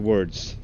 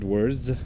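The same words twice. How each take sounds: First: The word ends with a hissing s sound. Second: The word ends with a buzzing z sound. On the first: This is how a Swedish speaker says it. "In Swedish, we're going to say words" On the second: This is the standard English way. "not words"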